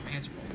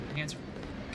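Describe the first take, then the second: First: Said in the usual way. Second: A voiceless whisper of the line. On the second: Shown as a demonstration. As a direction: whisper it to yourself.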